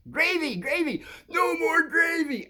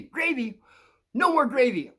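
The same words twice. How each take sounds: First: Much higher, slow cartoon voice; cartoon catchphrase. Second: High shouted cartoon yell of gravy; cartoon catchphrase shout. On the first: Quoting the cartoon to the kids, high and slow. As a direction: squeal it out like the cartoon character. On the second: Recalling the cartoon, shouts its catchphrase high. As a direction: belt out the cartoon line, pitched way up.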